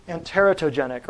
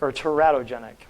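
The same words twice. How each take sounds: First: Teratogenic with the stress on the first syllable, TER-a-to-genic. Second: Teratogenic with the stress moved to the middle, te-RAT-o-genic; teratogenic, second way. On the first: Teaching the audience a medical term, teratogenic stressed on TER. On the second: Offering the audience an alternative, teratogenic stressed on RAT. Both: Shown as a demonstration. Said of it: "depending on where you put the emphasis".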